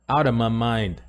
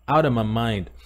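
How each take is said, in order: First: "Out of" runs together into "outa". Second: "Out of" runs together into "outa".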